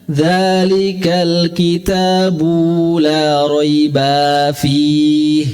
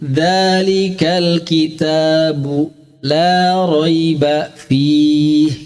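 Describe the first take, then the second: First: The reciter stretches a final sound between words. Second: The reciter stops briefly between the words. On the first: The speaker calls it wrong. "membiasakan memanjangkan" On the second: The speaker calls it right. "Mendingan antum berhenti"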